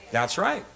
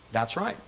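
Both takes have the same delivery.

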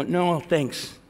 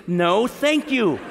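First: Said in the usual way. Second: Slow, exaggeratedly polite refusal; very courteous. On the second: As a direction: decline with drawn-out, showy courtesy. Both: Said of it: "I also was very courteous".

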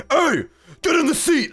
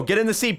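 First: High, loud, demanding yell; insistent shout. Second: Said in the usual way. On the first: Real, not acted. Host orders a player to join Pong, insistent shout. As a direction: holler it at someone ignoring you. Calls again to player ignoring him.

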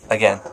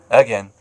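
First: Said in the usual way. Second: Firm, louder second take; louder repeat. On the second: Real, not acted. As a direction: say it again, harder.

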